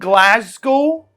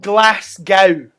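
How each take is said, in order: First: The middle consonant sounds like a z. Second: The middle consonant sounds like an s. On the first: The speaker calls it right. "I'm from Glasgow" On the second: The speaker calls it wrong. "not Glasgow"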